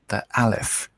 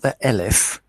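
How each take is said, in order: First: The first vowel is an open 'ah' sound. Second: The first vowel is an 'eh' sound. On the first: The speaker calls it right. "It's an A" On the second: The speaker calls it wrong. "not the Elef"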